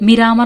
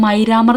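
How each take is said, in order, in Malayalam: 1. ആദ്യ സ്വരം 'ee' പോലെയാണ്. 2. ആദ്യ സ്വരം 'eye' പോലെയാണ്. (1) "മിരാമർ എന്നാണ് ശരിക്കുള്ള പ്രൊണൗൺസിയേഷൻ" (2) "മൈരാമർ എന്നാണ് പറഞ്ഞിരിക്കുന്നത്"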